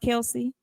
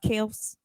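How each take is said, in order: First: The name ends with an 'ee' vowel sound. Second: The name ends with an 's' sound. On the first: The speaker calls it wrong. "their name is not pronounced Kelsey" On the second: The speaker calls it right. "It's pronounced Kels"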